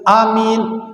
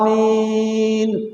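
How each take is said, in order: First: Neither vowel is drawn out long. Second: Both vowels are drawn out long. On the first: It means safe. The speaker calls it wrong. "A-nya tidak panjang, Min-nya tidak panjang" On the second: It means grant it. The speaker calls it right.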